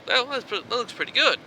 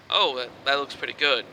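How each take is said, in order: First: High-pitched inner-monologue voice; acted thought in a raised voice. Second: Said in the usual way. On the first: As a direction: lift the pitch well up, as a thought voiced in the head. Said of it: "You think to yourself". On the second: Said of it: "it's your inner thought".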